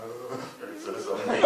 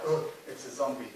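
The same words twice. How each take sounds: First: Slower, amused, lightly voiced reading; Richard Briers twist on it. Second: Said in the usual way. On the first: Director imitating Richard Briers' comic reading, slower and amused. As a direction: give the line a sly comic turn, laughing slightly. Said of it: "turning it into something like". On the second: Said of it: "taking any line like".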